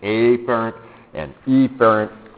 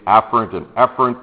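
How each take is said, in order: First: The two words' first sounds are exaggerated apart. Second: The two words' first sounds are nearly alike. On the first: This makes it obvious which word is meant. "I mispronounce those words just a little bit, so it's really obvious" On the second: This is the usual way, easily confused. "usually we say afferent and efferent"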